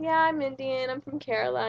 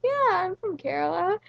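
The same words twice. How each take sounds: First: Said in the usual way. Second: Higher, rising, emphatic repeat of Kerala; mock insistent yes, I'm from Kerala. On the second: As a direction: say it again, a bit indignant, pitch up. Repeats answer to doubting driver.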